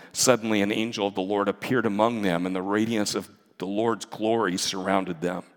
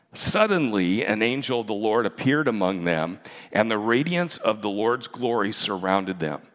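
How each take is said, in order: The two takes are said the same way.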